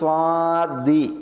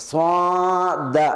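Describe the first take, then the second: First: It ends with a short i vowel. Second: It ends with a short a vowel. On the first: "അല്ലെങ്കിൽ സ്വാദി" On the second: "ചിലർ അതിനെ സ്വാദ ആ നിലയ്ക്ക്"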